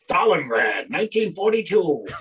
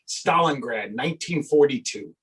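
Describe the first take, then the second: First: Spoken in a dramatic newsreel announcer voice. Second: Spoken in an ordinary conversational voice.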